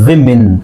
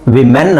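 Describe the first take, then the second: First: The second syllable sounds like 'min'. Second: The second syllable sounds like 'men'. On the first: The speaker calls it right. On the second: The speaker calls it wrong.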